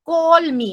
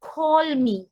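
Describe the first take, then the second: First: "Call me" said quick and casual; কথ্য ভঙ্গিতে "Call me"; everyday call me. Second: Sung, "Call me" with a rounded, English-style vowel; sung, গানের ঢঙে "Call me". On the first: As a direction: toss off "Call me" as in speech. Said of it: "আমরা কি বলি?". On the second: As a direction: say "Call me" the way you would sing it. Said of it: "আমরা গানেতে specially কি বলবো?". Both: Shown as a demonstration.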